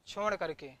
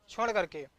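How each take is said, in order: Both takes have the same delivery.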